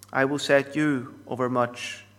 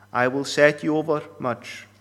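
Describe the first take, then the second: Both takes have the same delivery.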